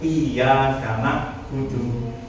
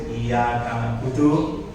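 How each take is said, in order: First: The y sound is held long and doubled. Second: The y sound is short and single. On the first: To you, O God, I worship. The speaker calls it right. "harus benar" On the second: To sunlight I worship. The speaker calls it wrong. "Tanpa ada tasdid"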